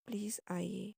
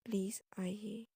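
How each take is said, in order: Both takes have the same delivery.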